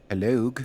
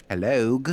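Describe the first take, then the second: The two takes are said the same way.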